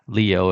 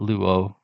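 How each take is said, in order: First: It is said with the modern Greek pronunciation. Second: It is said with the Erasmian Greek pronunciation. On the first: "if you're using modern" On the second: "is how they pronounce it if you're using the Rasmian"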